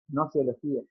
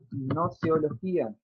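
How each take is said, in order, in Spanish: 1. La G inicial es muda. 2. La G inicial se pronuncia.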